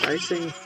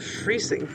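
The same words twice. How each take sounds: First: "Freising" with first syllable rhyming with "eye"; corrected pronunciation. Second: "Freising" with first syllable like "free"; first-try pronunciation. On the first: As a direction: say "Freising" as FRY-sing. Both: Shown as a demonstration. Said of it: "Second eye is what picks up the pronunciation".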